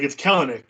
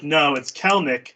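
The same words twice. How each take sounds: First: "Kelenic" in three syllables, "KEL-en-ic"; Kelenic pronunciation. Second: "Kelnick" in two syllables, slowly, "KEL-nick"; Kelnick pronunciation. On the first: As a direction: say "Kelenic" with the middle vowel kept, "Kel-en-ic". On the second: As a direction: say "Kelnick" slowly, dropping the middle vowel. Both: Retold or imitated. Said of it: "it's pronounced Kelnick".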